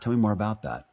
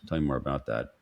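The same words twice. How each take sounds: First: It sounds warm, curious and genuinely interested. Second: It sounds flat, dull and uninterested. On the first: The listener truly wants to hear more. The speaker calls it right. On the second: The listener is only going through the motions. The speaker calls it wrong.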